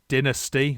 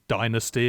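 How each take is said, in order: First: It is pronounced the British way. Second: It is pronounced the American way.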